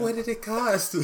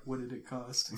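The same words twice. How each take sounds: First: Put-on high, laughing girl's voice; little girl voice. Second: Deep, hushed Thanos line; low voice. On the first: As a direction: squeak it like a small daughter. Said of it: "His, his daughter is like". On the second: Retold or imitated. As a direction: say it low and quiet. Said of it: "in the low voice".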